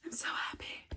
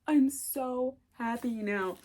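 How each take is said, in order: First: Soft whispered delight; hushed happy whisper. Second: Said in the usual way. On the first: Real, not acted. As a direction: whisper it, overjoyed.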